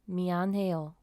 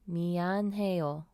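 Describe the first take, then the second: First: It is said at normal speed. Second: It is said more slowly.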